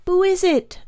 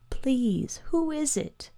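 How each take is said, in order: First: Put-on high, louder boy's cry of alarm; alarmed high-pitched question; frightened child's cry. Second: Put-on high, hushed child's plea; small, frightened, tearful voice; quiet fearful weeping. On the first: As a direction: cry out into the dark as a scared child. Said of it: "the boy cried". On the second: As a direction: plead softly as a boy choked with fear. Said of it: "the boy wept quietly, choked with fear". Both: A narrator's reading.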